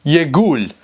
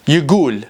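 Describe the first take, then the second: First: It is said with a g sound, Iraqi style. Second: It is said with a g sound, Iraqi style.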